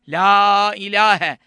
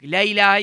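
First: The vowel in 'la' is drawn out long. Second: The vowel in 'la' is short. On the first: The speaker calls it right. "La'yı uzatmak lazım biraz" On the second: The speaker calls it wrong. "la ilahe gibi yapmayacak"

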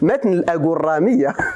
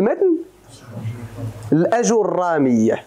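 First: It is said with Moroccan dialect vowel reduction. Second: It is said with full Classical Arabic vowels. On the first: "لبغيناها بالدارجة نقولوا" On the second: "ولكن بالعربية نقول"

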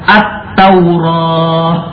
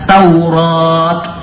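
First: The word ends with an h sound. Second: The word ends with a t sound. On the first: Some Arabs read the final letter this way. "ada yang membacanya dengan ha" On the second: Other Arabs read the final letter this way. "ada yang membacanya dengan ta"

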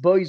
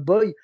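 First: The name ends with an s sound. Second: The name ends without an s sound. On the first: The speaker calls it wrong. "Les gens prononcent mal un peu ton nom. Ils disent boys" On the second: The speaker calls it right. "au lieu de boy"

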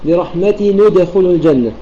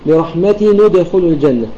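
No difference in how they are said.

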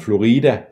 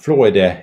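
First: The word is pronounced the Spanish way. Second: The word is pronounced the Danish way.

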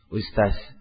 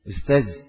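First: The final consonant is a voiceless s sound. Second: The final consonant is a voiced z-like sound. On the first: "lebih parah lagi jadi apa? Jadi sin" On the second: "Awalnya ustaz"

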